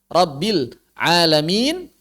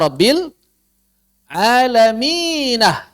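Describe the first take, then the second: First: The phrase ends on a plain n sound. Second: The phrase ends with an added h syllable. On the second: "maka ada yang baca Rabbil alaminah"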